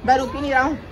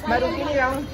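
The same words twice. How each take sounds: The two takes are said the same way.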